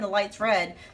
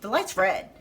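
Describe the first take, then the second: First: It is said in a soft, warm tone. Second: It is said in a sharp, harsh tone. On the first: The remark is kind and caring. The speaker calls it right. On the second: The remark sounds threatening or inflammatory. The speaker calls it wrong.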